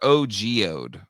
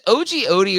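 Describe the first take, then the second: First: The last word is one syllable with no 'ee'. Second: The last word ends with an added 'ee' syllable. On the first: "or O G Ode?" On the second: "Is it O G Odie"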